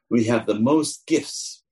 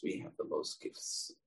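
First: Said in the usual way. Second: Much softer, a breathy whisper; whispered repeat. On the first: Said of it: "repeated as a whisper". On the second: Shown as a demonstration. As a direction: whisper it like a secret. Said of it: "said first aloud".

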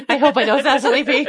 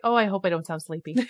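First: Loud, higher, laughing over-eager replay; hammed-up wide-awake. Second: Said in the usual way. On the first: Host mocking her early interview self, over-awake and loud. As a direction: exaggerate how awake you sound, laughing. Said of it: "I sounded so awake". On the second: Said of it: "I'm like".

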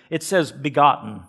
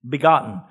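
First: Said in the usual way. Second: "Begotten" repeated louder and set apart; preacher landing the key word "Begotten"; stressed word. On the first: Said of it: "reading the margin word". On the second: Shown as a demonstration. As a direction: say "Begotten" alone, firm and louder. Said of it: "repeated for emphasis".

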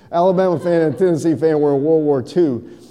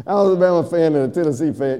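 First: Said in the usual way. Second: Quick teaser. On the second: Shown as a demonstration. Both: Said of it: "you don't have to pay extra for this one".

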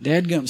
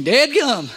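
First: Said in the usual way. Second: Dadgum drawn out with a Southern country twang, higher and louder. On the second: Shown as a demonstration. Pastor leading the congregation in a playful Southern country twang. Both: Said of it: "Say it with a little country twang".

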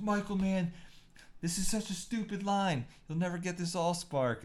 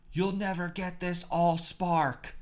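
First: High, exasperated actor griping to the director; mock a fed-up actor whining, then sneer at the line; higher, whiny, fed-up; Shia LaBeouf complaining. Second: High, slow, overdramatic action-hero line; higher, slowed, hammed-up movie line; Shia LaBeouf line reading. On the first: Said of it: "he's like". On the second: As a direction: ham it up like a blockbuster hero shouting his big line. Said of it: "And the line was".

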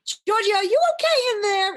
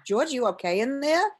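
First: Very high, loud retold holler; acted high-pitched worried yell; urgent call through door. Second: Higher, louder retold call; raised voice, lifting into a question; checking through the door. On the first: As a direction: shout in to check on someone. Calls louder after long wait. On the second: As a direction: call in with mild concern. Calls to George through door.

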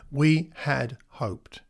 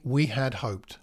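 First: WE HAD HOPED very slowly, word by word; slow, weighty repeat. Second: Said in the usual way. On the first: Retold or imitated. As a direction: let each word of "We had hoped" stand alone.

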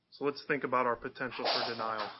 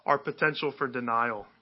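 First: Said in the usual way. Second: Our leaned on and falling; "Our" pressed hard, "potential for denial" lighter; stress on Our. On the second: Shown as a demonstration. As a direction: hit the word Our first.

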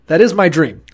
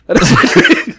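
First: Said in the usual way. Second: Dream breaks into a giggle, higher and airy; laughing through it. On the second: Retold or imitated. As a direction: laugh while saying the dream. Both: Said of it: "he's like, he's like".

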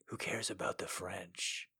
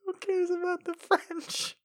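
First: Low, hushed, soft; low quiet voice. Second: High, squeaky, mocking. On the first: Pretend.

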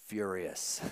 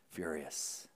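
First: Said in the usual way. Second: Much softer, almost breathed; hushed echo. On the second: Acted. Preacher repeating the older son's anger to the church, hushed. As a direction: drop the word to a hush. Echoes the word in a hush.

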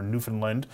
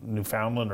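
First: Newfoundland with the middle reduced to "fin"; alternative pronunciation. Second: Newfoundland with a full "found" in the middle; alternative pronunciation. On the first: Host offering the other pronunciation, Newfoundland with reduced middle syllable. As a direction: say Newfoundland quickly as "NEW-fin-lind". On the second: Host unsure how to pronounce the place, Newfoundland with full "found". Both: Shown as a demonstration. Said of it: "can never quite figure out how to pronounce".

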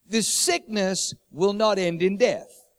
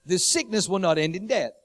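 First: Slow, solemn, leaning on not; slow stress on not. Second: Said in the usual way. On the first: Acted. Jesus promising his friends, slow and solemn. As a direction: let not land like a promise. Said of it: "Jesus then says". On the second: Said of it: "restated plainly".

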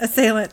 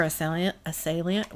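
First: "Assailant" in three syllables, "uh-SAY-lunt"; corrected "Assailant", no extra ee sound; corrected pronunciation. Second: "Assailant" with an extra ee sound, "uh-SAY-lee-unt"; tentative "Assailant?" with an added syllable before the last; mispronounced word. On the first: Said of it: "Thank you". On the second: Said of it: "I can't Assailant". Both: Real, not acted.

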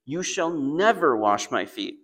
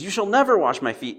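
First: Slow, firm stress on never; a stubborn refusal, drawn out; audacious refusal. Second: High, loud, and never falls hard; a loud, impulsive refusal of the foot washing. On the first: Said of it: "Imagine the audacity". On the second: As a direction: blurt out a flat refusal. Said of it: "Peter's the opposite". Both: Retold or imitated.

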